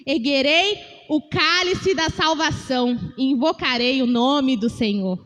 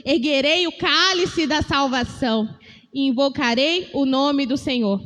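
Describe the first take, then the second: First: Slow, solemn reading of the verse; scripture reading. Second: Slow, measured reading of the verse; slow repeat reading; scripture reading again. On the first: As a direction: read it out slowly like scripture. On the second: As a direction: read the verse once more, slowly. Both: Shown as a demonstration. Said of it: "Vou ler mais uma vez".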